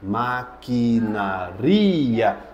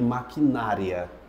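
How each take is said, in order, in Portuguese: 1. A tônica cai na sílaba 'ri'. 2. A tônica cai na sílaba 'na'. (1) "É maquinaria" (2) "Nada de maquinária"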